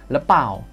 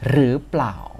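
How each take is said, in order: First: It starts with l and is said quickly. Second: It starts with r and keeps the pl cluster. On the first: "kalau lebih cepat lagi, nanti orang Thai jadi ngomong gini" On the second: "kita mulai dari cara bacanya"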